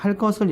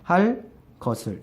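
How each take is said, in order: First: The words run together; the consonant is tensed. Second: A short pause separates the words; the consonant stays plain. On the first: "연속 발음을 해야지 그때 일어난다" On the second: "휴지를 두면, 잠깐 쉬는 틈을 주면은 일어나지 않습니다. 그러니까 할 것을 이렇게 읽으면 일어나지 않죠"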